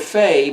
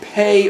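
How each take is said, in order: First: The word begins with an F sound. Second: The word begins with a P sound. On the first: The letter is written without a dot. "if there's no dot, it sounds like a P H" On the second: The letter is written with a dot. "If there's a dot, it sounds like a P"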